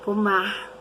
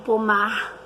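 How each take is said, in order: First: It is said in a Rio de Janeiro accent. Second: The same.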